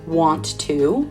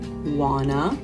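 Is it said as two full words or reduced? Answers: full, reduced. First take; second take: full; reduced. First: Two separate words with a full vowel in to. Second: Blended into one word ending in a schwa.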